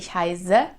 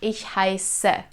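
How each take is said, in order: First: The s in heiße is a voiced, buzzing sound. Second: The s in heiße is a sharp, hissing sound. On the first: The speaker calls it wrong. "I don't say ich heiße" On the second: The speaker calls it right. "It's a sharp S sound"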